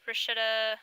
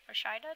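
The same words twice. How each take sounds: First: "Rashida" as rih-SHIH-duh; "Rashida" tentatively, middle syllable like "shih"; trying a pronunciation. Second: "Rashida" as ruh-SHY-duh; "Rashida" questioningly, middle syllable like "shy"; trying another pronunciation. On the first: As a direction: say "Rashida" with a short middle vowel. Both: Real, not acted. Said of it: "make sure I'm pronouncing them correctly".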